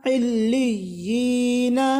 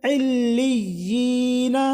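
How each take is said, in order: Both takes have the same delivery.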